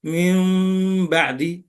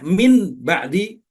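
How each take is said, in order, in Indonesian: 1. Bunyi m datang sebelum 'ba'di'. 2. Bunyi n datang sebelum 'ba'di'.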